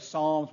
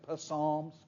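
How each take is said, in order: First: The word begins with an s sound, P silent. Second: The word begins with a sounded p before s. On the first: The speaker calls it right. "like we say Psalms" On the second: The speaker calls it wrong. "We don't say Psalms"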